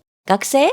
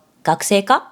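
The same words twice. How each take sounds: First: 学生 said higher, rising at the end; casual question, pitch rising on 学生. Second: Said in the usual way. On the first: Shown as a demonstration. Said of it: "with a rising tone instead of". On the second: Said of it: "instead of".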